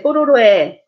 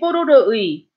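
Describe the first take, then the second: First: The final vowel is pronounced as 'e'. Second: The final vowel is pronounced as 'ui'. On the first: The speaker calls it right. "When you speak, you say 뽀로로에" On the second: The speaker calls it wrong. "So you don't say 뽀로로의"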